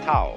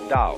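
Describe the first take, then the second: First: The word begins with a T sound. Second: The word begins with a D sound. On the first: "If there were an apostrophe after the T, you would pronounce it Tao" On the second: "if there is no apostrophe, you pronounce it Dao"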